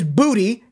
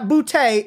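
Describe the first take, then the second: First: The name ends with an 'ee' sound. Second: The name ends with an 'ay' sound. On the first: The speaker calls it right. "And it is Booty" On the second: The speaker calls it wrong. "It is not Boutte"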